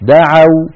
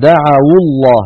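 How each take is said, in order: First: دعوا ending on the diphthong aw; still waw. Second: Slow recitation, دعوا joined as da'awu to الله; waw given damma. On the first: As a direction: say دعوا alone as da'aw, no vowel after the waw. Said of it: "واو ساكنة مفتوح ما قبلها". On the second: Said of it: "حركت الواو بالضم فصارت". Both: Shown as a demonstration.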